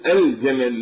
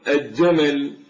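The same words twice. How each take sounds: First: The L is clearly heard before the J. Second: The L merges into a doubled J sound. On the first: The speaker calls it right. "فنقول الجمل" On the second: The speaker calls it wrong. "يجعلون الجيم من الحروف الشمسية"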